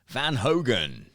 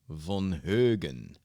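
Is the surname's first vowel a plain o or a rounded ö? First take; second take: plain o; rounded ö. First: The surname's first vowel is a plain o. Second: The surname's first vowel is a rounded ö. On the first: This is how others get the name wrong. The speaker calls it wrong. "I always get gets butchered up when I go to the U S" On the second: This is the name's own pronunciation. The speaker calls it right. "No, von Högen"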